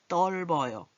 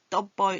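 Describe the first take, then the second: First: An L sound comes before the B. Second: No L sound comes before the B. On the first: The speaker calls it right. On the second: The speaker calls it wrong.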